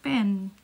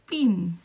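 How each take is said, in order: First: The vowel is a soft, open E. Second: The vowel is a tense E near I. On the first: This is how a Filipino says it. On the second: This is how a New Zealander says it.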